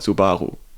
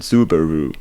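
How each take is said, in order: First: It is said with a German pronunciation. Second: It is said with an American pronunciation. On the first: This is how Germans say it. "we call it" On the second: This is how Americans say it. "you say"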